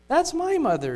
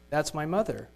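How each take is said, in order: First: High, loud, overwhelmed; shaking with emotion. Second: Said in the usual way. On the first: Acted. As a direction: gasp it out in shock. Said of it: "shaking with emotion".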